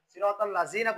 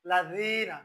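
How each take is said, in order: First: সিরাতাল লাযিনা with a buzzing Z, "la-zeena"; mistaken Z. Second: লাযিনা with a soft TH as in "this", long "ee"; tongue tip at the teeth for লাযিনা, "la-dheena"; correct soft Dhal. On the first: Teacher shows another wrong reading, Z in লাযিনা. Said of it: "এটাও ভুল". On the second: Teacher models the right sound, soft DH in লাযিনা. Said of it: "সেজন্য বলতে হবে". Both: Shown as a demonstration.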